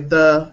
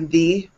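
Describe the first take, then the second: First: The vowel is a short, relaxed 'uh' sound. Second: The vowel is a long 'ee' sound. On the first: This is the usual modern way of saying the word. "So now we just say the" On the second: This is an older, dated way of saying the word. "That's actually pretty dated. It's an older way of saying that word"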